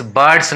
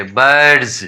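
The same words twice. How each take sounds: First: बर्ड्स with a hissed s at the end; wrong S ending. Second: बर्ड्स with a buzzing z at the end; voiced Z ending. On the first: Teacher shows learners how not to read it, बर्ड्स with final s. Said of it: "नहीं पढ़ेंगे". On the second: Teacher corrects the reading for learners, बर्ड्स with final z. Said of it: "बर्ड्स नहीं पढ़ेंगे". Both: Shown as a demonstration.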